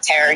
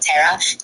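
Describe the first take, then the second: First: The final R sound is clearly pronounced. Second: The final R blends into the vowel. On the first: "instead of terror" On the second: "he was saying terra"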